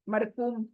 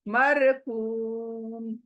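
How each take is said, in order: First: The ending is cut off abruptly. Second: The ending is gently drawn out. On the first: The speaker calls it wrong. "सुनाई सुनने में भी कितना भद्दा लग रहा है" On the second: The speaker calls it right. "प्यार से खींच कर पढ़ें"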